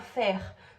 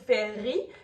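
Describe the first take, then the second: First: The name is said as one syllable. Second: The name is said as two syllables. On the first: The speaker calls it wrong. "je l'ai lu en l'appelant Fer" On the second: The speaker calls it right. "en appuyant sur ces deux syllabes"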